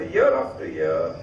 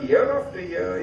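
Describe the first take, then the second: First: Year after year said much lower and slowly; low, slow repeat. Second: Said in the usual way. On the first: Acted. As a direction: drop the pitch and draw out year after year. Father boasting of yearly crop.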